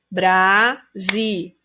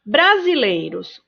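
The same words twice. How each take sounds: First: "Brasileiros" split into BRA, SI, LEI, ROS; slow teacher's bra... si... lei... ros; syllable by syllable. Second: Said in the usual way. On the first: Shown as a demonstration. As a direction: count out "Brasileiros" in four separate syllables. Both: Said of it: "Quatro sílabas".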